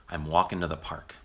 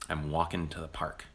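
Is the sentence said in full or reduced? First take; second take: reduced; reduced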